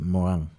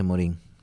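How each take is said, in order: First: The name is said with a French accent. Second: The name is said with a Spanish accent. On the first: This follows the original French way. "desde el acento eh, francés" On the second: This is the usual way people say it. "Generalmente se le dice"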